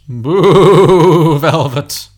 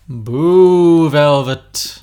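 First: It has a bleating, sheep-like wobble. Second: It is a smooth, even ghostly voice.

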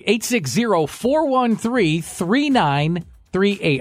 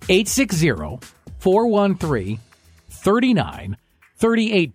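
First: The number is read at a normal pace. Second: The number is read more slowly.

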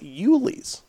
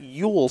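First: The name is said as two syllables. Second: The name is said as one syllable. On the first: The speaker calls it right. "It is Yulee's. That is how it's pronounced up there" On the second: The speaker calls it wrong. "It is not Yule"

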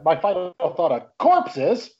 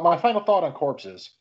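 First: Corpses is said loudly, like an exclamation. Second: Corpses is said flatly, without excitement.

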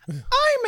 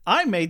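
First: It is said in a put-on childlike voice. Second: It is said in the speaker's normal voice.

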